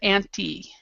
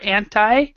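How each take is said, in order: First: It is said with a British pronunciation. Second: It is said with a non-British pronunciation. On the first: "the British way of anti" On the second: "which is how I pronounce it"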